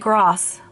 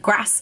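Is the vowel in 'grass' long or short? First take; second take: long; short. First: The word is said with a long A vowel. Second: The word is said with a short A vowel. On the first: This is not the northern way of saying it. The speaker calls it wrong. "I don't say grass" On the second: This is the northern way of saying it. The speaker calls it right. "I do short A's. I say grass"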